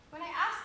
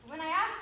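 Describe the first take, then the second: No difference in how they are said.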